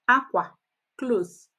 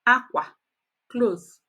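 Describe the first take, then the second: The two takes are said the same way.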